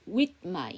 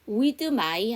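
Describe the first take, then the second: First: The th sound in 'with' is dropped or unreleased. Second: The th sound in 'with' is fully pronounced. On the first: The speaker calls it right. "th 발음을 아예 안 하던가 th 발음을 받침으로 넣으시던가" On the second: The speaker calls it wrong. "with my 하지 마시고"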